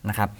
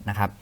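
Both takes have the same delivery.

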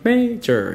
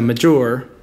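First: The stress falls on the first syllable. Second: The stress falls on the second syllable. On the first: The speaker calls it right. "you're stressing the first one" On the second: The speaker calls it wrong. "instead of major"

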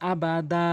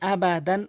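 First: The word ends on a long a without n. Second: The word ends with an n sound. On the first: The reader stops at this word. "ওয়াকফ করলে আবা দা, এভাবে কিন্তু টেনে পড়বেন" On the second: The reading continues without a stop. "যেমন আবা দান"

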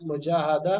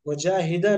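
First: The vowel after the long a is a. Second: The vowel after the long a is i. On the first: The speaker calls it right. "वहां पर जबर होगी" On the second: The speaker calls it wrong. "मुजाहिदा नहीं होगा"

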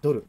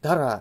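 First: It is said as Japanese 'doru'. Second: It is said as English-like 'dara'.

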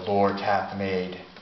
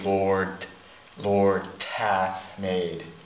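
First: The D and H are said as separate sounds. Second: The D and H merge into a T sound.

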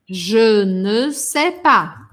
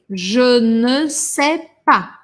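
First: Every word is said in full, including ne. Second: The same.

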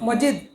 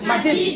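First: The first vowel is a short 'o' sound. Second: The first vowel is a long 'aa' sound. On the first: The speaker calls it wrong. "অনেকে কি পড়েন?" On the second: The speaker calls it right. "সঠিক উচ্চারণ কোনটা?"

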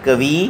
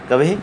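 First: The word is said with heavy stress. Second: The word is said with light stress. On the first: "यहाँ कवि पर ज़्यादा बल पड़ता है" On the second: "कवि कम बल पड़ता है"

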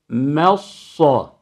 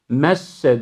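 First: The m is thin and the s is thick. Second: Both the m and the s are thin. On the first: The speaker calls it right. "doğrusu bu" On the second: The speaker calls it wrong. "messe diye sadı inceltip sine çevirmek yok"

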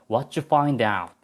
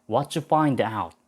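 The two takes are said the same way.

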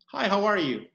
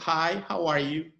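First: It is said at a quicker pace. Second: It is said at a slower pace.

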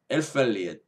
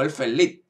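First: The name is said in a loose, anglicized way. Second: The name is said in its original German way. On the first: The speaker calls it wrong. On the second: The speaker calls it right.

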